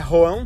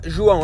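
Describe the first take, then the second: First: The name begins with a harsh h-like sound. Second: The name begins with a soft zh sound.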